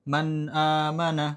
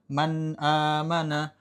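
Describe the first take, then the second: Both takes have the same delivery.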